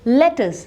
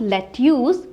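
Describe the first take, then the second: First: The second syllable sounds like 'tus'. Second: The second syllable sounds like 'tyoos'. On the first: The speaker calls it right. "It is pronounced as लेटस" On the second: The speaker calls it wrong. "Not लेट्यूस"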